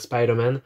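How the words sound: It is said with an English accent. The speaker calls it right. "mon accent anglais pour dire Spider-Man"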